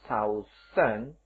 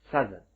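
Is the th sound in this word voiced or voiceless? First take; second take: voiceless; voiced. First: The th is voiceless, like in south. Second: The th is voiced, like in the. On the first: The speaker calls it wrong. "kita membacanya bukan southern" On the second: The speaker calls it right. "tetapi southern, southern, southern, pakai the"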